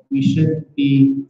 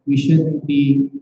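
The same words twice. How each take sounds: The two takes are said the same way.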